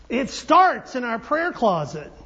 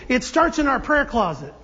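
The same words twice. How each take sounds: First: Slow, with STARTS drawn out and hit hard; stress on STARTS. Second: Said in the usual way. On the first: Real, not acted. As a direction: lean heavily on "starts" and slow the line down. Repeats it slowly for emphasis.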